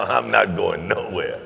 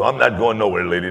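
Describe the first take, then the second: First: Slow, each word leaned on; steady emphatic promise; slow emphatic repeat. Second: Louder, eager call to the lady; light eager reassurance; reassuring call out. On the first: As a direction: repeat it slowly so she believes you. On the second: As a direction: promise her you'll stay put, with energy. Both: Retold or imitated.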